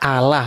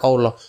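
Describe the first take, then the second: First: It is said the plain Indonesian church way. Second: It is said the Arabic, Islamic way. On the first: It names the God of the Christian Bible. The speaker calls it right. "harusnya dibaca Allah" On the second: It names the God of the other religion. The speaker calls it wrong. "bukan Allah"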